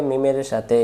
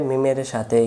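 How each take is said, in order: The two takes are said the same way.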